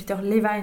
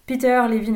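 First: The name is pronounced the English way. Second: The name is pronounced the French way.

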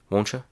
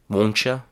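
First: It is said fast with a relaxed mouth. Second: It is said slowly with clear sounds. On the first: "the reduced form in a very natural way, with my mouth very relaxed" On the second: "the reduced form, but in a slower, cleaner, easier to understand way"

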